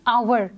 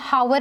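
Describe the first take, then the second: First: The word starts with a vowel, no h. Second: The word starts with an h sound. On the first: The speaker calls it right. "We pronounce it as आवर" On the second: The speaker calls it wrong. "इसमें हम हावर नहीं कहते हैं, एच की sound नहीं आती है"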